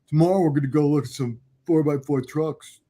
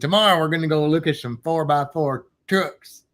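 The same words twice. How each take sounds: First: It is said in a neutral accent. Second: It is said in a deep Southern accent. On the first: The speaker calls it right. "Is that better?" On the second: The speaker calls it wrong. "I always go Southern for like my manly voice"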